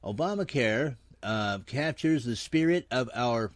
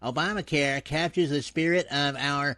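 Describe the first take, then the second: First: It is read in a natural speaking voice. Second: It is read in a put-on cartoon voice. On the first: The speaker calls it wrong. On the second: The speaker calls it right.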